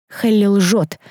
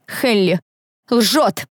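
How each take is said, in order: First: Assured, raised-pitch accusation; confident. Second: «Хелли», pause, then «лжёт» pitched higher; loud and confident. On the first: Student accuses her friend before officials, confident. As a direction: state it firmly, in one go. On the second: Student insists friend lies, «Хелли... лжёт» word by word, confidently. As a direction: split «Хелли» and «лжёт», landing firmly on each. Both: A narrator's reading. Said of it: "Мой голос звучал громко и уверенно".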